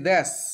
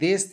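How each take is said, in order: First: The vowel is pronounced as 'ae'. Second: The vowel is pronounced as 'e'. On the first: This is the Bangali dialect form. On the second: This is the standard form.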